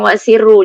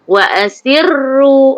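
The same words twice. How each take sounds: First: The doubled r is said quickly and lightly. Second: The doubled r is held with clear emphasis. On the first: The speaker calls it wrong. "Jangan wa asirru, jangan nipis" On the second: The speaker calls it right. "bagi masa yang cukup untuk sebut ro tu dua kali"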